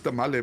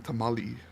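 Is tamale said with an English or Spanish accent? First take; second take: Spanish; English. First: It is said with a Spanish-sounding pronunciation. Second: It is said with an English pronunciation. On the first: The speaker calls it wrong. "why are you saying it like that?" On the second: The speaker calls it right. "like in English"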